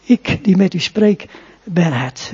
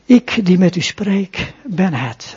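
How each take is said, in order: First: Nadruk op "die" met stijgende toon; stress on die. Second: Nadruk op "Ik", langzaam en plechtig uitgesproken; stress on ik. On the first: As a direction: laat "die" omhooggaan, "ben het" dalend. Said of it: "ronduit zegt dat hij de Messias is". (klemtoon op "die", daarna dalend "ben het") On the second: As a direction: leg het gewicht op "Ik", dan "ben het" zacht laten vallen. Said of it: "Het cruciale woord". (klemtoon op "Ik", traag en statig) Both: Shown as a demonstration.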